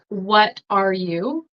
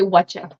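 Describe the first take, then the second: First: Each word is said fully and separately. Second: The words merge into one reduced form. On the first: "instead of saying like" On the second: "You'll say, whatcha?"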